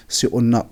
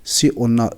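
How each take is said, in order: Both takes have the same delivery.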